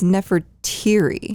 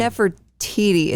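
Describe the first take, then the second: First: NEFERTIRI, slowly, ending in "teery" with an R; corrected pronunciation. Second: NEFERTITI with a T sound starting the last syllable; wrong pronunciation. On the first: Correcting a co-host on the queen's name, Nefertiri pronounced carefully. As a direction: stretch out Nefertiri with a clear R in the last syllable. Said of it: "it's Nefertiri". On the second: Correcting a co-host, the mistaken name, Nefertiti. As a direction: say Nefertiti with a crisp "tee" at the end. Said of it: "So it's not Nefertiti". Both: Shown as a demonstration.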